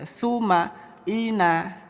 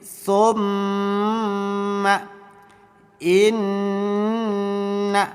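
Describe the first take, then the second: First: The nasal sounds are short and not held. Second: The nasal sounds are held for two beats. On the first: The speaker calls it wrong. "Bukan dibaca" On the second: The speaker calls it right. "bunyi suara nun atau suara mim ditahan... Seperti ini"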